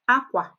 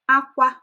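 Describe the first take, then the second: First: It has the tone pattern meaning clothes. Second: It has the tone pattern meaning cry. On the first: It means clothes. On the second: It means cry.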